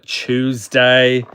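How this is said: Tuesday begins with a 'chew' sound. "the way I say Tuesday ... are you going to chew on Tuesday? That's just how I say it"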